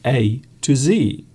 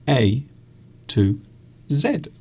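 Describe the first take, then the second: First: The last letter is pronounced zee, American style. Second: The last letter is pronounced zed, British style. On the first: This is how Americans say it. "someone in the States say" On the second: This is how British people say it. "here we will say"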